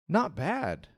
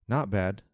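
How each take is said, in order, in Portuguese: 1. A voz soa positiva e contente. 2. A voz soa monótona e infeliz. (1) "que eu estou falando que eu estou bem" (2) "o contrário"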